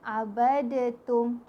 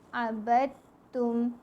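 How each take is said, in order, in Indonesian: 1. Bunyi d dilepas dengan memantul sebelum t. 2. Bunyi d langsung menyatu ke t yang dirangkap. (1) "tak adalah qalqalah dekat abadatum, salah" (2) "Yang betul abadtum. Kita terus masukkan bacaan di dalam ta"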